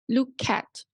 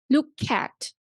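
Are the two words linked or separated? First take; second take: linked; linked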